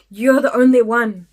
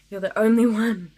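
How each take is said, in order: First: Loud, emphatic mock driver; a near-shout of recognition; excited exclamation. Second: Emphatic repeat. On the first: Bus driver greets the only witness with a near-shout. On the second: Retold or imitated. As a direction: repeat it a notch down. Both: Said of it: "he would just be like".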